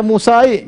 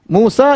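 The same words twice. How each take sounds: First: "Musai" with an added final i; wrong i ending. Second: "Musa" ending on a plain a; no vowel added after "Musa"; correct unchanged ending. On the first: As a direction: tack an i onto the a in "Musai". ("Musai" dengan tambahan i di akhir) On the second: ("Musa" berakhir bunyi a saja) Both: Shown as a demonstration. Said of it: "jangan dibaca Musai".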